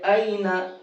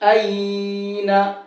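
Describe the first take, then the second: First: The ya sound in the middle is kept short. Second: The ya sound in the middle is drawn out. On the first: The speaker calls it right. "जल्दी पढ़ेंगे" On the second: The speaker calls it wrong. "क्या गलती होती है इसमें पढ़ने में"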